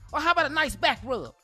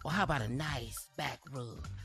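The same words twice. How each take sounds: First: It is read in a plain, ordinary voice. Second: It is read in a put-on sexy voice.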